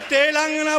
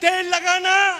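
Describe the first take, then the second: First: It is said as one word, Telangana. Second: It is split into two words, tel lagana. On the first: The speaker calls it right. "बोलो तेलंगाना" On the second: The speaker calls it wrong. "वहां जाकर के क्या बोलती हैं"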